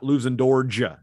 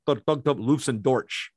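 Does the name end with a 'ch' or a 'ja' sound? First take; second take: ja; ch. First: The name ends with a soft 'ja' sound. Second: The name ends with a 'ch' sound. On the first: The speaker calls it wrong. "It's like not Luzendorja" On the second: The speaker calls it right. "Like it's Luzendorch, like it's a CH"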